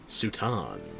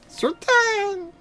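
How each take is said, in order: First: It is said in an ordinary, everyday speaking voice. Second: It is said in a squeaky, high-pitched put-on voice. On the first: "that's just boring using my everyday voice" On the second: "bring back the Furby voice and add extra pitch"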